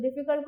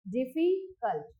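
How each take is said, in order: First: Said in the usual way. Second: "difficult" slowly, pausing between डिफि and cult; syllable by syllable. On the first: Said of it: "जब हम बोलते हैं". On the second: Shown as a demonstration. Teacher counting syllables for learners, "difficult" broken as डिफि, cult. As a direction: split "difficult" into two clear chunks. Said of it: "first है diffy and the second one is cult".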